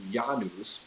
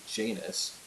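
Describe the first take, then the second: First: "Janus" said the Latin way, YAH-noos; Latin pronunciation. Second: "Janus" said the English way, JAY-nus; English pronunciation. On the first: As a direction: pronounce "Janus" with a Latin Y-sound and oo vowel. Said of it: "in Latin is pronounced". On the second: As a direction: pronounce "Janus" with an English J and long A. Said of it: "in English we say". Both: Shown as a demonstration.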